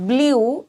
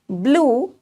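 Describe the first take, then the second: First: The vowel is a 'yoo' sound. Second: The vowel is a plain 'oo' sound. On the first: The speaker calls it wrong. "this one is not blue" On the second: The speaker calls it right. "it is blue"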